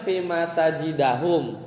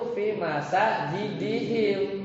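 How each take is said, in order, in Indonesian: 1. Vokal setelah masajid- adalah bunyi a. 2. Vokal setelah masajid- adalah bunyi i. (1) "Harusnya kan fathah kan?" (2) "itu jadi kasroh"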